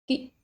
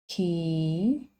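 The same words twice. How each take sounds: First: The vowel is short and said quickly. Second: The vowel is held longer and drawn out. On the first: "This vowel is a short and quick sound" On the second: "You have to hold the sound longer"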